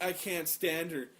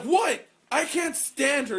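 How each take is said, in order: First: Said in the usual way. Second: High, loud, disbelieving protest; a loud mock protest at the teacher; indignant outburst. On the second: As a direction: throw the line out in outrage. Retold argument with teacher.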